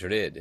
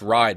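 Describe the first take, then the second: First: The surname is said with its original pronunciation. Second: The surname is said with an English pronunciation. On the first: The speaker calls it right. "but I think it's" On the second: The speaker calls it wrong. "In English, you think it's"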